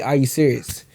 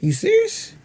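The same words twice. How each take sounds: First: Said in the usual way. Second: Are you serious? jumps way up high and rises; high shocked question. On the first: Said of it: "the line will be". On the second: Shown as a demonstration. Actor demoing the line differently, high squeal. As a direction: squeal it in disbelief. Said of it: "we'll say it different ways".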